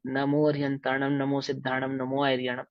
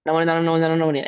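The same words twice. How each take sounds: First: Pure, careful recitation. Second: Hurried gabble, words run together; careless rushed recitation. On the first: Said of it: "ऐसा शुद्ध उच्चारण होना चाहिए". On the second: Teacher showing how not to recite, hurried and slurred. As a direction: rattle the mantra off without separating the words. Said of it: "ऐसा नहीं". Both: Shown as a demonstration.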